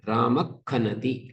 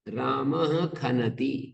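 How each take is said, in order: First: A throaty back friction comes before khanati. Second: A plain h-like breath comes before khanati.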